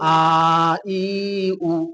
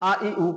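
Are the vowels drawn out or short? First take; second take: drawn out; short. First: The vowels are drawn out long. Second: The vowels are short and quick. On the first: The speaker calls it wrong. "যদি বলেন আ ই উ, ভুল হবে" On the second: The speaker calls it right. "হরকতো কো জলদি পড়ে থোড়া ভি না খিচে"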